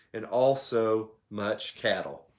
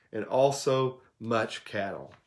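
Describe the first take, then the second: The two takes are said the same way.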